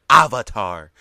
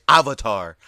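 Both takes have the same delivery.

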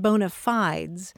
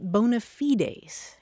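First: It is said with an American English pronunciation. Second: It is said with a Latin pronunciation. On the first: "usually the pronunciations heard in the United States" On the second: "in Latin, you pronounce it bona fides"

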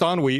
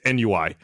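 First: The word is said with French pronunciation. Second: The word is said without French pronunciation. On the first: "it's a French word. It's ennui" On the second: "she kept pronouncing it NUI"

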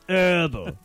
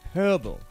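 First: The word starts with a vowel; the H is silent. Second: The word starts with a pronounced H sound.

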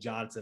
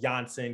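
First: The name begins with a hard J sound. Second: The name begins with a soft, non-J sound. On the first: This is the American way of saying it. The speaker calls it right. "can you call me Johnson?" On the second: This is how it is said in the player's home country. The speaker calls it wrong. "instead of calling me Johnson"

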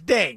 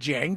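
First: The name starts with a D sound. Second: The name starts with a J sound. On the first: The speaker calls it right. "It's D. It's Ding" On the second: The speaker calls it wrong. "It's not Jing"

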